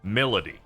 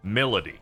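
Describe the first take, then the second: First: The word is said with an elaborate, dressed-up flourish. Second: The same.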